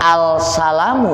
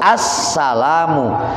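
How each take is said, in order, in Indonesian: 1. Bunyi 'l' diucapkan sebelum 's'. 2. Bunyi 'l' menyatu ke dalam 's' yang dobel. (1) "Jangan al-salamu bacanya" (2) "harus as-salamu"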